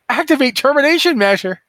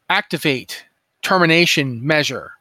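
First: It is said in an excited way. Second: It is said in a flat, robotic way.

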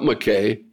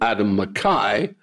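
First: The surname has a non-Scottish pronunciation. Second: The surname has the Scottish pronunciation. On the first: The speaker calls it wrong. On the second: The speaker calls it right. "as we would say"

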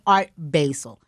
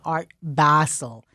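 First: Basel sounds like the herb basil. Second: Basel does not sound like the herb basil. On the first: The speaker calls it wrong. "no better way to prove your ignorance and uncouthness than saying Art Basel" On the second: The speaker calls it right. "it is so important for people to pronounce it correctly"

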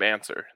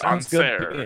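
First: The surname sounds like the English word answer. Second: The surname sounds closer to its original pronunciation. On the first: This is how people commonly say the name. "they call him Abe Answer" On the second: This is probably the name's actual pronunciation. "it's probably on Serre or something like that"

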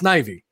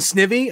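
First: The first vowel sounds like 'eye', as in 'Ivy'. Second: The first vowel sounds like the vowel in 'it'. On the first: The speaker calls it right. "it's Snivy, like, yeah, Ivy" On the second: The speaker calls it wrong. "I've been saying Snivy"

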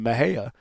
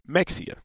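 First: The name is said in its standard form. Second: The name is said the way northerners say it. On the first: This is the proper way to say it. "is the I guess the correct enunciation of it" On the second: Outsiders from the north say it this way. "If most times people from the north, they say Mexia"

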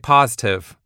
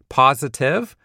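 First: One syllable of the word is dropped. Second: All three syllables of the word are pronounced. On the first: The speaker calls it wrong. "I say positive. So I can actually save that one syllable" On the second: The speaker calls it right. "instead of saying things like positive"

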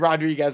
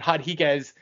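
First: The name is said with an English pronunciation. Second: The name is said with a Brazilian pronunciation.

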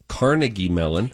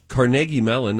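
First: It is said the New York way. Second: It is said the Pittsburgh way.

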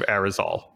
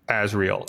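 First: The name starts with an 'Ar' sound. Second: The name starts with an 'Az' sound. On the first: The speaker calls it right. "instead of Arizal" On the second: The speaker calls it wrong. "I keep wanting to say Azriel"

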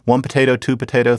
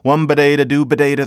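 First: Potato starts with a strong, breathy P sound. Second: Potato starts with a soft, B-like sound. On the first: The speaker calls it wrong. "Notice that nobody said it like that" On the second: The speaker calls it right. "it would always kind of come out"

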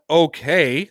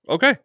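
First: It is said in a sarcastic tone. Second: It is said in a sincere, accepting tone. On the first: The reaction was dismissive. "not okay" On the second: The reaction was genuinely accepting. "it wasn't like sarcastic. It was like okay"

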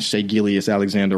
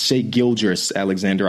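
First: The middle name sounds like 'Gillies'. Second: The middle name sounds like 'Gilgeous'. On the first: The speaker calls it wrong. "saying Shea Gillies Alexander wrong" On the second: The speaker calls it right. "It's Shea Gilgeous Alexander, I guess"

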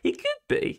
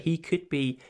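First: It is said in a high-pitched voice. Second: It is said in a normal pitch.

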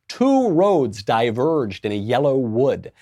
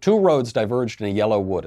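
First: It is spoken with big, exaggerated mouth movements. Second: It is spoken plainly with ordinary mouth movement. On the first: The speaker calls it right. "I would make my mouth really big and I would use all my muscles" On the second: The speaker calls it wrong. "I wouldn't just even say it like that"

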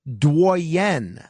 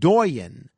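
First: The word is said with a French pronunciation. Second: The word is said with an English pronunciation. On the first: The speaker calls it right. "should really be pronounced Doyen, and that's a French word" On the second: The speaker calls it wrong. "what I called doyen"

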